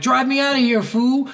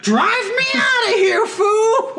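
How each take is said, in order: First: Mock yelled order. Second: Very high, loud cracking shout; mock frantic shout. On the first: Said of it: "and then he's like". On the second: Gang member after police cars explode, frantic high shout. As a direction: scream the order at full pitch. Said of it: "And he's like".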